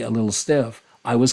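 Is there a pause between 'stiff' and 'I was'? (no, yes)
yes. A break comes after 'stiff' before 'I was'. She was stiff, and the speaker was careful. "Or you could read it the other way"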